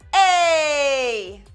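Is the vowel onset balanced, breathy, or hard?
hard. The vowel starts with a sharp glottal catch. "more of the harder and the glottal side"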